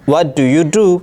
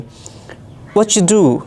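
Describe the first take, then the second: First: Every word is pronounced fully and separately. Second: The first 'do' is reduced and blended away. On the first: This is how learners say it. "अगर हम कहेंगे तो हम कहेंगे" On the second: This is how native speakers say it. "अगर कोई अंग्रेज़ जुमले को बोलेगा तो हम ऐसे सुनेंगे"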